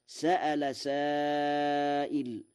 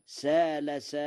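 First: Slow recitation, glottal stop inside سأل; hamza in سأل. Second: Long alif in سال, no hamza; Warsh reading. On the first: Teacher quotes the verse before Warsh's reading, سأل with hamza. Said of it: "قرأ ورش". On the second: Teacher shows listeners Warsh's reading, سال without hamza. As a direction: say سال as saa-la, rhyming with qaala. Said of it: "على وزن قال". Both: Shown as a demonstration.

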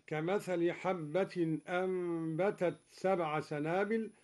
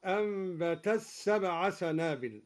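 First: Said in the usual way. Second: أنبتت سبع run together as anbatas-sab; final t of أنبتت swallowed into a doubled s; ta merged into sin. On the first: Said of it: "أدغم الدوري التاء في السين". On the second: Shown as a demonstration. Teacher showing the idgham. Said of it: "هكذا".

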